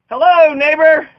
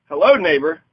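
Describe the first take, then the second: First: Higher, louder, slow drawn-out Hello, neighbor; a hammed-up booming neighborly hello; mock hearty greeting. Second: Said in the usual way. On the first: Playful greeting demo.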